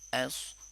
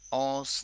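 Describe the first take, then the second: First: The vowel is a plain unrounded a sound. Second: The vowel is a rounded gliding au sound. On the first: The speaker calls it right. "आ को बोल्डली नहीं पढ़ेंगे" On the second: The speaker calls it wrong. "औस नहीं करेंगे"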